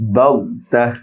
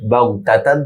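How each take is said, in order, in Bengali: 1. শব্দটি ছোট 'h' ধ্বনি দিয়ে শেষ হয়। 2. শব্দটি নাসিক্য 'tan' দিয়ে শেষ হয়।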